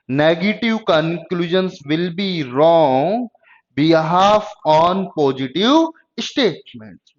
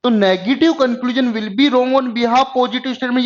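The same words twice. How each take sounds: First: Spaced-out words, paced for writing down; unhurried dictation for notes; slow dictation. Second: Higher, running the rule together as a recap; higher emphatic recap of the rule; emphatic reminder. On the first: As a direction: read it slowly for students to copy. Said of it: "note down भी कर सकते हैं". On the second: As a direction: press the rule home, stressing be. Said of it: "ये ध्यान रखो". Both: Shown as a demonstration.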